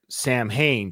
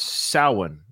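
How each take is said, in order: First: The word is sounded out as it is spelled. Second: The word is sounded differently from its spelling. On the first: The speaker calls it wrong. "I thought it was pronounced like you, Zip, Samhain, just like you see it" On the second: The speaker calls it right. "It's actually pronounced Samhain"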